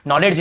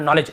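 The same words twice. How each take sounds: First: "नॉलेज" with an audible D before j; wrong pronunciation. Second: Said in the usual way. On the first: Shown as a demonstration. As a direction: sound the silent D in "नॉलेज", as nol-ed-j. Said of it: "नॉलेज नहीं पढ़ रहे". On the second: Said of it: "केवल नॉलेज ऐसे पढ़े".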